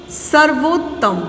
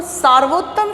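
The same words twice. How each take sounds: First: सर्वोत्तम said slowly with a short अ, सर्-वोत्तम; correct form, slow. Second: सार्वोत्तम said with a long आ, सार्-वोत्तम; wrong spelling read out. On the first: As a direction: say सर्वोत्तम slowly and carefully with a short first vowel. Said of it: "शब्द होता है". (सही रूप सर्वोत्तम, छोटे अ के साथ धीरे-धीरे) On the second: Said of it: "सार्वोत्तम शब्द नहीं होता है". (गलत रूप सार्वोत्तम, लंबे आ के साथ) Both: Shown as a demonstration.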